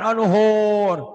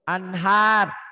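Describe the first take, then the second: First: The last syllable has an 'o' or 'u' vowel. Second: The last syllable has an open 'a' vowel. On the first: The speaker calls it wrong. "Jangan onuhur. ... Kalau A jangan dibaca O" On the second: The speaker calls it right. "Anhar. ... Bunyi A"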